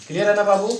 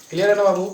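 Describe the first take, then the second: No difference in how they are said.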